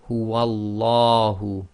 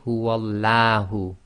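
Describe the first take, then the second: First: The L is heavy, with a full mouth. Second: The L is light and thin. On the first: The speaker calls it right. "tafkhim, that is full mouth" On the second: The speaker calls it wrong. "You cannot say"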